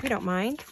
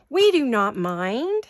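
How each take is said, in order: First: Said in the usual way. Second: We do not mind, each word slow and louder, hitting NOT; emphatic slow. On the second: Shown as a demonstration. Reassuring viewers they can wait, slow emphatic We do not mind.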